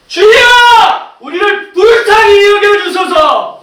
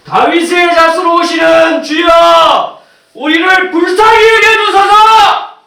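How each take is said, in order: First: Very high, drawn-out full shout for mercy; shouting even harder. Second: Drawn-out, high full-voiced shout to the Lord; crying out for mercy. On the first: Acted. Blind man refuses to be silenced, shouting harder. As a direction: belt out the plea, stretching every word. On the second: Blind man calls to passing Jesus, crying out for mercy. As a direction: cry out slowly and loudly, holding the words. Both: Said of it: "더 소리를 질러요".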